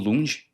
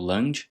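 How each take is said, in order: First: The name is said with a Portuguese-style vowel. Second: The name is said with an English-style vowel.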